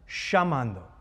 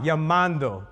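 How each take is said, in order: First: The double L sounds like 'sh', Argentine style. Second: The double L sounds like a 'y'.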